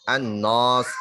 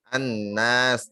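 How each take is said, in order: First: The long a vowel sounds thick and heavy. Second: The long a vowel sounds thin and light. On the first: The speaker calls it wrong. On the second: The speaker calls it right.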